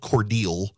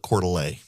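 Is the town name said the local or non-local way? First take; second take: local; non-local. First: The name is said the way locals say it. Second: The name is said the way outsiders say it. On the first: The speaker calls it right. "it was called Cordele" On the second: The speaker calls it wrong. "she on the campaign trail would call it Cordele"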